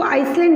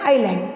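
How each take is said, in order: First: आइसलैंड with the silent s wrongly sounded; mispronounced island. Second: आइलैंड as "eye-land", no s sound; silent s. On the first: Teacher showing pupils the wrong reading, mispronounced with an s. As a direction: say आइसलैंड as "ice-land", s heard. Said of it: "इसको आइसलैंड नहीं पढ़ते". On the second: Teacher showing pupils how island is read, silent s. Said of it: "इसको पढ़ते हैं आइलैंड". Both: Shown as a demonstration.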